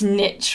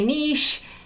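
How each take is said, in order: First: It is said the way American speakers say it. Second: It is said the way Scottish speakers say it. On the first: "And you're from the States, it's niche" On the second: "I'm based in Scotland, so here we say niche"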